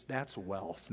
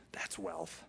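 First: Said in the usual way. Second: Whispered. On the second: Shown as a demonstration. Preacher hushing the congregation, whispered awe. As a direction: whisper "That's wealth." in awe.

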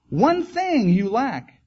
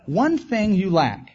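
First: ONE said high and slow; preacher pressing the point home; slow emphasis. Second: ONE stressed, slowed, falling; slow down and hit one; preacher repeating the key line; repeated emphasis. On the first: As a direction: lean hard on one, slowly. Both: Real, not acted.

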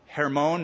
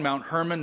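First: "Hermon" as hair-MOHN, with a full final O; Hebrew pronunciation. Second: "Mount Hermon" with Hermon as HER-mun; English pronunciation. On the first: Preacher naming the peak to tour-goers, Hebrew pronunciation of "Hermon". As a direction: say "Hermon" the Hebrew way, stressing MON. Hebrew name, then English form. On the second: Preacher restating the peak's name, English pronunciation of "Mount Hermon". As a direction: say "Hermon" the English way, weak second syllable. English form after Hebrew one. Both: Shown as a demonstration.

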